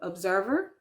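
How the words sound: It is said with an English pronunciation. The speaker calls it wrong. "you think in English they are"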